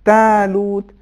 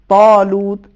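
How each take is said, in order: First: The long a vowel sounds light and thin. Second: The long a vowel sounds heavy and full. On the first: The speaker calls it wrong. "اس طریقے سے پڑھیں تالوت یا والمین یہ صحیح نہیں ہے" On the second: The speaker calls it right. "تفخیم کے ساتھ ادا کرنا ضروری ہے"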